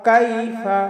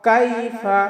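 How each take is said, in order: The two takes are said the same way.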